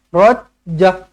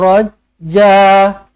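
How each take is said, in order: First: The final vowel is short. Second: The final vowel is held longer. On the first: The speaker calls it wrong. "Pendek sangat pula satu harakat" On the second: The speaker calls it right. "Kena dua harakat"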